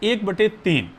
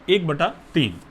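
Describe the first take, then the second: First: The middle word ends in an 'e' sound. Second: The middle word ends in an 'a' sound. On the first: The speaker calls it wrong. "बटे बटे समझ रहे हैं बच्चों, गलत है बोलना" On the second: The speaker calls it right. "बटे को सही कैसे बोलेंगे, बटा करके"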